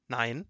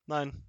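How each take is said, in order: First: Rising, questioning NEIN; dismayed question. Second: NEIN stated, not asked; confirming repeat. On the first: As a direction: lift the end of NEIN as a question. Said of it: "begann zu weinen". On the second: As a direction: repeat NEIN as a settled answer. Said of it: "wiederholte der Wachtmeister". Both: A narrator's reading.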